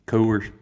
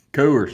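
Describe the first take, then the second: First: Said in the usual way. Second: Coors shouted, higher and much louder; proud loud shout of the brand. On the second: Shown as a demonstration. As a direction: belt out Coors. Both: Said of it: "You gotta say Coors".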